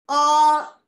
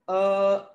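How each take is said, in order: First: The vowel is said at a high pitch. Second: The vowel is said at a low pitch. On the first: "saying it in the high pitch" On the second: "saying it in the low pitch"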